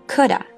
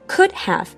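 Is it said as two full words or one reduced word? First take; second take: one word; two words. First: It is linked into one reduced word. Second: It is said as two full words. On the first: "连音变成了coulda" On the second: "是could have 连音变成了coulda"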